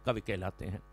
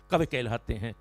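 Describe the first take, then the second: First: Hushed closing line of the poem; whispered poetic close; soft dramatic refrain. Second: Said in the usual way. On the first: Shown as a demonstration. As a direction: let कवि कहलाते हैं fall away to a near hush. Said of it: "repeated refrain, soft dramatic close". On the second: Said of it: "repeated refrain, first take".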